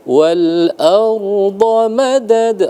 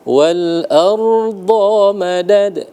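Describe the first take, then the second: First: The vowel in 'da' is held one short beat. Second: The vowel in 'da' is drawn out long. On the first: The speaker calls it right. "satu ketukan" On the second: The speaker calls it wrong. "salah, nggak boleh"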